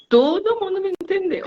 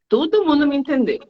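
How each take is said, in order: First: "Todo mundo me entendeu" much higher and softer, mocking; mock proud student. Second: Higher, proud student boasting; a pleased student claiming success, pitched high. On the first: Teacher mimics student's boast about being understood, very high and soft. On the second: Retold or imitated. Student tells teacher everyone understood, pitched high. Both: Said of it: "e eles falam assim".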